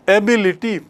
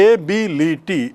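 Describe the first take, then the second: First: Said in the usual way. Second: एबिलिटी slowly split into four distinct syllables. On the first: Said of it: "चार बार". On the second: Shown as a demonstration. Teacher showing four vowel sounds, एबिलिटी in separated syllables. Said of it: "चार बार हो रहा है".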